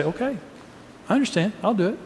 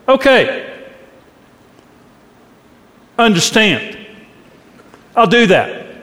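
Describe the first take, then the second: First: Soft, much quieter and gentle; tender reassurance to a spouse who needs to be heard; caring. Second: Curt, higher and sharper okay with a resentful edge; a grudging, irritated yes to your spouse; with attitude. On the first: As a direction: say it so they hear you truly care. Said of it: "If I care, I say". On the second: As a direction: say it like you're put out by the request. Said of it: "your spouse is hearing an attitude behind it". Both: Shown as a demonstration.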